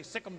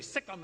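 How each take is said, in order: First: "sick 'em" as a dog command; "sick 'em" said short, like sicking a dog. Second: "Sikkim" said like sick 'em; "Sikkim" for "see Him", one clipped word; Texas "Sikkim". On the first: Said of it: "like you say "sick 'em" to a dog". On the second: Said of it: "that's the way we say". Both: Shown as a demonstration.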